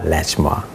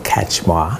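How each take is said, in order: First: The name begins with an L sound. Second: The name begins with a K sound. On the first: The speaker calls it wrong. "and not Lachmar" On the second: The speaker calls it right. "It's Doctor Kachmar"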